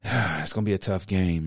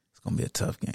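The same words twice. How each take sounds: First: Said in the usual way. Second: Unvoiced, murmured to himself; breathy aside repeating the worry; under his breath. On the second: Real, not acted. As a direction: say it almost in a whisper, worried.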